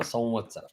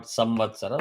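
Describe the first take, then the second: First: "Samvatsara" as sau-vatsara, no closed m; nasalised anuswara. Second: "Samvatsara" with a closed m before va; wrong plain m. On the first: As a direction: let "Sam" glide nasally into the va of "Samvatsara". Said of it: "after the Anuswara, you have the Va". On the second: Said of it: "not Samvatsara". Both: Shown as a demonstration.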